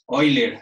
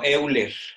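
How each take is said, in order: First: The name is said in its original pronunciation. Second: The name is said letter by letter as spelled. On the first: The speaker calls it right. "y se pronuncia así este nombre" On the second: The speaker calls it wrong. "no Euler"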